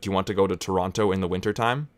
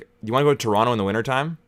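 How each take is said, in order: First: The T sounds are clearly pronounced. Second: The T sounds are dropped, Canadian style.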